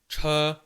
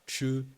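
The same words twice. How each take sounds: First: It is said with the Chinese sound. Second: It is said with the French sound. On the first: The speaker calls it right. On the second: The speaker calls it wrong.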